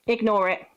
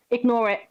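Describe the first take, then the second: No difference in how they are said.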